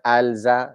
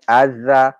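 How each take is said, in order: First: Alza with the l sounded; alza, lam not assimilated; wrong al-za. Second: Azza slowly with a doubled z; azza, lam merged into the z; assimilated azza. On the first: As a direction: say alza keeping the l. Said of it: "not alza". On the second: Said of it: "not alza, no, azza". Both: Shown as a demonstration.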